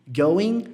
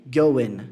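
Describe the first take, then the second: First: "Going" ending with a rising tune; first going variant. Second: "going" ending with a falling tune; second going variant. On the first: Teacher contrasting two ways of saying "Going". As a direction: say "Going" and let it rise at the end. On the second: Teacher contrasting two ways of saying "going". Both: Shown as a demonstration. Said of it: "Pegou a diferença?".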